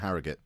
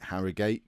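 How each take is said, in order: First: The name is said loosely, with an excited energy. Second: The name is said carefully, every syllable in full. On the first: "If I'm if I'm getting excited, it'll probably become" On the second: "if I'm trying to pronounce it properly"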